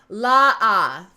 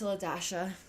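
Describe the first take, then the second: First: The name is said without the word dash. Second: The name is said with the word dash inside. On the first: The speaker calls it wrong. "Every teacher who has ever read the class list has went la ah" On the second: The speaker calls it right. "The dash is enunciated"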